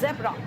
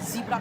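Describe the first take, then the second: First: The first vowel sounds like the one in 'bed'. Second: The first vowel sounds like the one in 'see'.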